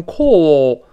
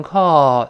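First: "call" with a rounded British aw vowel. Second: "call" with an open ah vowel; American call. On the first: Teacher shows how the English say it, "call" rounded. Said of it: "这个英国人读成call". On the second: Teacher contrasts with British vowel, "call" as American kahl. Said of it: "美国人是觉得费劲". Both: Shown as a demonstration.

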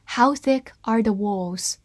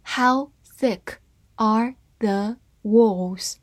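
First: Said in the usual way. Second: Slow, word-by-word model reading. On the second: Shown as a demonstration. Teacher reads the example sentence for learners, slowly word by word. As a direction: read it slowly, separating each word. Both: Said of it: "慢慢来读".

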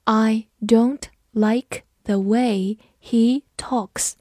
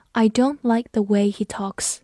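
First: Very slow, one word at a time; slow, careful model reading; slow read-through. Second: Said in the usual way. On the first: Shown as a demonstration. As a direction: read it slowly for learners to follow, pausing between words. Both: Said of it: "跟着我慢读一遍".

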